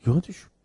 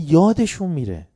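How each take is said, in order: First: یادشون alone with a questioning rise; repeated یادشون. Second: یادشون said louder with a falling tune; stress on یادشون. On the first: Teacher repeating یادشون to check understanding, rising. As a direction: lift یادشون up as a prompt. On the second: Teacher stressing یادشون to students, louder falling. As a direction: lean on یادشون then let it fall. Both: Shown as a demonstration. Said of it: "دقت کردی؟".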